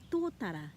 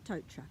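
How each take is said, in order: First: It is said with clear Māori vowels. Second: It is said with anglicized English vowels. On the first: The speaker calls it right. "saying Tōtara" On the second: The speaker calls it wrong. "instead of"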